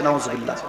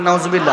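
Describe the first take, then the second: First: Low, muted response; quiet, low-pitched interjection; low and soft. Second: Fuller voice prompting the crowd; firm call for a response; firmer, audible response. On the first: Real, not acted. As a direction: drop it to a soft, deep murmur. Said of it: "এত আস্তে কেন?". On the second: Shown as a demonstration. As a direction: say it out firmly for them to repeat. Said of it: "আর জোরে বলেন".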